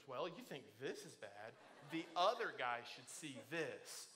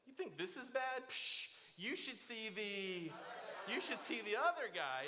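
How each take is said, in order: First: Low, hesitant mumble of the joke, words mixed up; botched joke. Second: A breezy, swaggering brush-off, a touch higher; cocky joke demo. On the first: Retold or imitated. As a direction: flub the punchline, unsure of it. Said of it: "I didn't say it the way you told me". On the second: Shown as a demonstration. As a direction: sell the joke like you won the fight. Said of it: "just say this".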